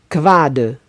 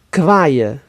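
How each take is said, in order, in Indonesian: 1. Konsonan tengahnya bunyi d. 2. Konsonan tengahnya bunyi y.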